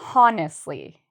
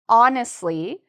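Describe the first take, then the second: First: The word begins with an audible H sound. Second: The word begins with a vowel, no H sound. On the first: The speaker calls it wrong. "They have that that H sound" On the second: The speaker calls it right. "So listen carefully"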